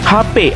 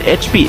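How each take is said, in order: First: The letters are named the Indonesian way. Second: The letters are named the English way. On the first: This is how nearly everyone says it. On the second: Hardly anyone says it this way.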